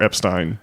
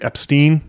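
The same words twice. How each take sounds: First: The last syllable is said like stine. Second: The last syllable is said like steen. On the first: The speaker calls it right. "have the proper German pronunciation" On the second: The speaker calls it wrong. "have the wrong pronunciation"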